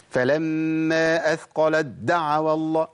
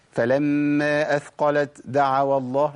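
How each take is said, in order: First: أثقلت دعوا with the merged د pressed too hard, drawn out; over-forced dal. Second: أثقلت with an audible t and puff before دعوا, slow; hams, wrong. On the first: Teacher showing what not to do, أثقلت دعوا over-stressed merger. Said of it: "القوة ديت والشدة ديت". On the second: Teacher demonstrating the error, أثقلت with released airy ت. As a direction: keep a breathy unmerged ت in أثقلت while reciting slowly. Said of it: "أنا كده جبت همس". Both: Shown as a demonstration.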